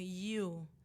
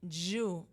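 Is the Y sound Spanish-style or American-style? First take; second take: American-style; Spanish-style. First: The Y is said like an American Y. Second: The Y is said like a Spanish Y. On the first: The speaker calls it right. "instead of you" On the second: The speaker calls it wrong. "I was saying you"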